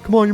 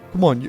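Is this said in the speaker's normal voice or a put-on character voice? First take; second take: put-on; normal. First: It is said in a put-on character voice. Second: It is said in a plain, normal voice. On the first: The speaker calls it right. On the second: The speaker calls it wrong.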